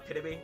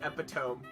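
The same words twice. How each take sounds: First: It is said with the usual pronunciation. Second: It is said with the comedian's joke pronunciation. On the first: The speaker calls it right. "instead of uh, epitome" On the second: The speaker calls it wrong. "there's a comedian that says epitome instead of"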